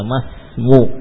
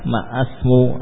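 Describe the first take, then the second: First: The s follows ma directly with no vowel. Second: An extra a vowel is heard before the s. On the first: The speaker calls it right. "langsung saja masmu" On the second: The speaker calls it wrong. "Tidak lagi dibutuhkan alifnya"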